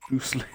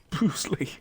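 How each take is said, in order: First: Said in the usual way. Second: Whispered through a laugh. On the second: Real, not acted. Gamer whispering a fighter's name while laughing. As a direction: breathe the name with a giggle.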